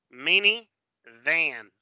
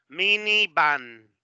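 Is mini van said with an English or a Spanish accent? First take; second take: English; Spanish. First: The v is buzzed with teeth on lip. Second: The v sounds like a b, Spanish style. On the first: "Pero en inglés" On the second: "en español"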